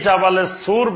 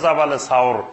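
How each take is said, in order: First: The last word has a plain 'oo' vowel. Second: The last word has an 'aw' glide. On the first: The speaker calls it wrong. "এখন যেটা জাবালে সুর বলে" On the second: The speaker calls it right. "শুদ্ধ উচ্চারণ হলো জাবালে সাওর"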